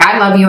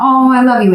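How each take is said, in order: First: It is said bluntly, in a matter-of-fact tone. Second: It is said softly, with warm emotional feeling.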